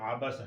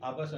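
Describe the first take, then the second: First: It starts with a deep, squeezed throat sound. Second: It starts with a light glottal stop. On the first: The speaker calls it right. "बल्कि ये आबासा है, आइन के बाद निकालेगा" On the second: The speaker calls it wrong. "ये आबासा नहीं"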